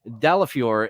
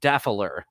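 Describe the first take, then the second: First: The name has four syllables, ending in -fior. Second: The name is shortened to two syllables, Daffler. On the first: This is the name's actual pronunciation. "His name is obviously Dalafior" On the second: This is the community's in-joke pronunciation. "wants it to be pronounced Daffler"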